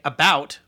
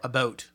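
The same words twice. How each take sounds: First: "about" rhyming with "out", standard American; about with ow vowel. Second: "about" said like "a-boat"; mock-Canadian "about" with a long "oh"; fake Canadian about. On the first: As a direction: say "about" with the "ow" of "cow". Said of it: "do you say about or about". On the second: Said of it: "adopt a fake Canadian accent". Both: Shown as a demonstration.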